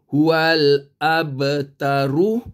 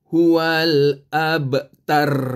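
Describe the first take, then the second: First: The final r is followed by a short u. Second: The word ends on a bare r sound. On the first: The reading goes on without stopping. "ra depan ru" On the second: The reader stops at this word. "bila berhenti menjadi huwal abtar"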